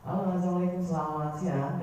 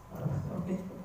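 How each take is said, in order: First: Bright smiling phone hello, raised pitch; friendly smiling phone opener; smiling greeting. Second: Breathless weepy whispered hello, higher; mock crying phone greeting; mock tearful. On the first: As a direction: greet the caller with a smile in the voice. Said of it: "pembawaannya memang harus kondisikan tersenyum". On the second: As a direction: greet as if you've just been crying. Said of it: "Kalau ketika panjenengan nangis". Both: Shown as a demonstration.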